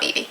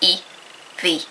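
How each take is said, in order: First: It is said as one two-syllable name. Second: It is said as two separate letters. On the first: The speaker calls it wrong. "It's not Evie" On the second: The speaker calls it right. "it's E V Seymour"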